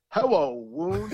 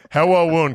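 First: Slow, high "Hello, Woon" dropping the R; Cousy's R-less New York "Woon" for Roone; R-less New York accent. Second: Put-on R-less New York accent. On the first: Retold or imitated. Imitating Cousy greeting Arledge, high R-less New York voice. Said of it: "pronounce words without the R". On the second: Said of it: "he had no idea that he sounded like that".

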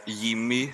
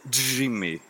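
First: "Jimmy" said with a Y sound, as Yimmy; pronunciation with Y. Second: "Jimmy" said with a hard English J; American J pronunciation. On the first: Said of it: "I, I would say". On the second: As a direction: start "Jimmy" with a buzzing American J sound. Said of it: "but in U S A". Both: Shown as a demonstration.

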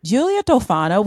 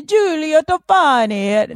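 First: Said in the usual way. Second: Hammed-up Italian accent, higher pitch. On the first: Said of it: "so I'm gonna be Giulia Tofani". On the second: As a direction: roll it out in a showy mock-Italian accent. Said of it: "my Italian accent is just as good".

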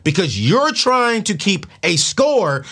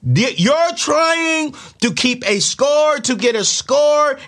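First: Said in the usual way. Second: Much higher, louder, very slow stretched delivery; intensified repeat. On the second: Shown as a demonstration. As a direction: stretch it out as the climax.

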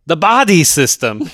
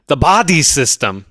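First: Put-on thick Austrian accent, pitched higher and insistent. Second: Put-on thick Austrian accent, stressing body; terminator-style accent. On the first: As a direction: repeat "The body system." higher, in a heavy Austrian accent. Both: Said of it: "his accent is perfect".

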